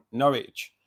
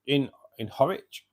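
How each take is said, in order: First: Norwich corrected with a firm N, NOR-itch. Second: Horwich said with a clear H, HOR-itch; puzzled repeat of Horwich, breathy H at the start. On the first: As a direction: set it right: Norwich, stressing the N, a bit louder. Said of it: "Norwich isn't". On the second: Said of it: "Horwich is just up the road for me". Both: Shown as a demonstration.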